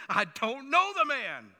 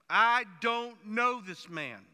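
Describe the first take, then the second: First: Loud, slow sworn denial with a heavy "know"; swearing denial. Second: Loud and very slow, every word of "I don't know this man" spaced out; drawn-out oath. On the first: Retold or imitated. Peter swearing to bystanders he doesn't "know" the man, loud and slow. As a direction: bark out the oath that you don't "know" the man. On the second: Pretend. Peter imagined swearing before God, loud and very drawn out. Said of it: "probably saying something like".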